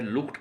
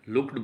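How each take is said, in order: First: The ending is a t sound. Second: The ending is a d sound. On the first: "ईडी sound ट sound में परिवर्तित हो जाएगी" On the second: "अक्सर GRP में इसको लुक्ड बोला जाता है"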